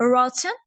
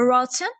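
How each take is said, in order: First: It is said in a British accent. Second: The same.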